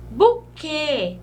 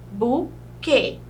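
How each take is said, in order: First: Said in the usual way. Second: "buquê" split into bu, quê; syllable by syllable. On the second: Shown as a demonstration. Teacher separating the syllables, "buquê" in two beats. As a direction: leave a clear gap inside "buquê".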